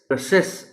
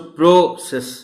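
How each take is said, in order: First: The first vowel is a reduced 'uh' sound. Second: The first vowel is a full 'o' sound. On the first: The speaker calls it right. "P R के बाद जो ओ है उसकी sound अ sound है" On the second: The speaker calls it wrong. "प्रोसेस नहीं कहा जा सकता"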